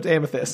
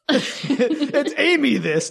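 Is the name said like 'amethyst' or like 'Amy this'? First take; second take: amethyst; Amy this. First: The name sounds like the gem word 'amethyst'. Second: The name sounds like the two words 'Amy this'. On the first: It is the actual pronunciation. The speaker calls it right. "No, it's Amethyst" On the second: It follows the spelling. The speaker calls it wrong. "I gotta call it Amy This to spell it right"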